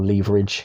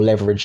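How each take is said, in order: First: Leverage is said with a British accent. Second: Leverage is said with an American accent.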